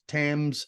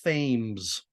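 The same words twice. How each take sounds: First: The word is said in its usual way. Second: The word is said as it is spelled. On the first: The speaker calls it right. "it's pronounced Thames" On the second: The speaker calls it wrong. "it's spelled like Thames"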